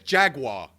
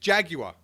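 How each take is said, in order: First: It is said with a w sound after g. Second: It is said with no w sound after g. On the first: The speaker calls it wrong. "Who says Jaguar? There's no fucking W in it" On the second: The speaker calls it right. "It's Jaguar"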